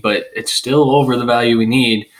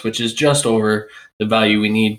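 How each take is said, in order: First: "still over" pressed to make the point; stress on STILL OVER. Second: JUST picked out, rest of the phrase lighter; stress on JUST. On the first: Host insists the player clears value, stress on STILL OVER. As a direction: lean on "still over", falling to the end. Counters own concession about the value. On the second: Host concedes the margin is narrow, stress on JUST. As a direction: lean on "just" as a small concession. Contrasts just over with still over. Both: Real, not acted.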